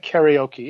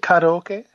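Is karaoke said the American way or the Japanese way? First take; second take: American; Japanese. First: It is said with an American-style pronunciation. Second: It is said with a Japanese-style pronunciation. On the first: The speaker calls it wrong. "if you say karaoke, everyone will know what you're talking about" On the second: The speaker calls it right. "You say karaoke"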